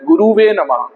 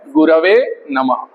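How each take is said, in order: First: The second syllable has a 'u' vowel. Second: The second syllable has an 'a' vowel. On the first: The speaker calls it wrong. "हमारी क्षेत्रीय त्रुटियों के कारण ये एक word बोलते हैं" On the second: The speaker calls it right. "सही शब्द आएगा गुरवे"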